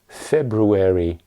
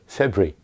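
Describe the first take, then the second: First: All syllables are pronounced in American style. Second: Syllables are dropped, making it even shorter. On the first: "In American English, you would hear February" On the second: "And sometimes it's even shorter"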